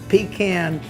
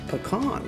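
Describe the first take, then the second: First: The word sounds like 'pee can'. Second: The word does not sound like 'pee can'. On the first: The speaker calls it wrong. "you can pee in a can, but you can't eat it" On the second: The speaker calls it right. "That's that that's the proper way of saying it"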